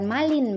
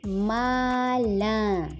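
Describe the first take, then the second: First: The final n is pronounced as a consonant. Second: It ends in a nasal vowel without n. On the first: The speaker calls it wrong. "bukan malin bacanya" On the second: The speaker calls it right. "tapi mala"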